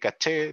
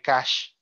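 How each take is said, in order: First: It is said with stress on the final syllable. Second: It is said as the English word cash. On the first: "en castellano hablamos de caché, le ponemos la tilde" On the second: "en inglés eh, se habla de cash"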